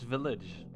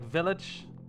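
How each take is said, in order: First: It is said with a standard English accent. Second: It is said with a foreign-sounding accent. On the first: The speaker calls it right. "No, it's village" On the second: The speaker calls it wrong. "my pronunciation of English is not really uh, like the, the so to say proper way"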